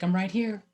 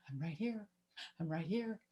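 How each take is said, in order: First: Said in the usual way. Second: Much softer, a distant little call; faint far-off calling. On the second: Retold or imitated. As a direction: let it fade away like a call from the treetop. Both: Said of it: "like, calling to us".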